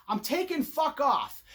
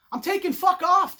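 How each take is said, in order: First: Said in the usual way. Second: Higher and louder, "off" punched; louder, higher insistent take; emphatic declaration. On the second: Shown as a demonstration. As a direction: declare it loud.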